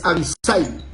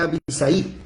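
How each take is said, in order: First: Abisai stressed on the first A, A-bisai, said slowly; corrected Abisai, accent on the A. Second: Abisai stressed on the last syllable, abi-SAI; wrong stress on the I. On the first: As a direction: say Abisai leaning on the opening A. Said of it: "acento en la A". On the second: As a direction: say Abisai with the weight on the final I. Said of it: "Si tuviera la tilde en la I, entonces sonaría". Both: Shown as a demonstration.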